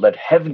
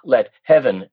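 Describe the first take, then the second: First: 'Heaven' is said with one syllable. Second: 'Heaven' is said with two syllables. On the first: The speaker calls it right. "let heaven and nature say" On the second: The speaker calls it wrong. "not let heaven"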